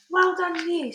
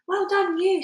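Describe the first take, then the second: First: BFG's fond reply; said kindly. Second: High, bright cheer; cried. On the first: BFG smiling down at Sophie, fond praise. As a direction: return the praise gently. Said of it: "said the B F G". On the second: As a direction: cheer him on, delighted. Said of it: "Sophie cried". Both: A narrator's reading.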